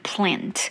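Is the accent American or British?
American. It is said in an American accent.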